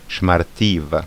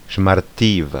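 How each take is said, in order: Both takes have the same delivery.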